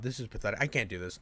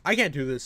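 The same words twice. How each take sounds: First: Muttered low and much softer, almost to himself; defeated mutter. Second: Said in the usual way. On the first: Real, not acted. Reacting to the clip, a defeated low mutter. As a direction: sink into it, barely voiced. This is pathetic.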